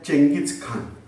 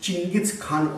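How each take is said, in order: First: The name starts with a 'cheng' sound. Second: The name starts with a 'ching' sound. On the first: This is how the name is usually said locally. "We are pronouncing as" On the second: This is the original form of the name. "original it is said it is"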